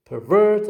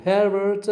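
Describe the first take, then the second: First: "pervert" as per-VERT, VERT raised; stress on second syllable. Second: "pervert" as PER-vert, PER raised; stress on first syllable. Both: Shown as a demonstration. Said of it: "using the stress in the".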